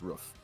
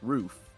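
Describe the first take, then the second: First: It is said differently from the spelling. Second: It is said the way the spelling suggests. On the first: The speaker calls it right. "But the correct way to say it is roof" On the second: The speaker calls it wrong. "if I'm looking at it, it's roof because it's R O O F"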